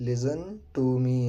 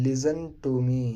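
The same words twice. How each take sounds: The two takes are said the same way.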